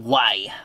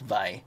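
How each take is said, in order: First: The word begins with a W sound. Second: The word begins with a V sound. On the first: The speaker calls it wrong. "don't say it" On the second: The speaker calls it right. "but it's actually pronounced Vi"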